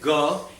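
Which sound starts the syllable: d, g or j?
g. The syllable is said as a plain ga. This is the Bengali way. "Bengalis will say ga"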